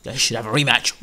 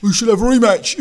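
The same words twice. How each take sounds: First: Said in the usual way. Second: High, loud mocking mimicry; mock a pundit clamouring for it; Steve Bunce. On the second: Mocking a boxing pundit's call for a rematch, high-pitched clamour. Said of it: "unlike what Steve Bunt suggested".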